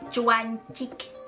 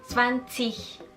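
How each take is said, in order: First: The word begins with a ch sound. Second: The word begins with a ts sound. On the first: The speaker calls it wrong. "ataupun zwanzig, cuancik" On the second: The speaker calls it right. "tapi zwanzig"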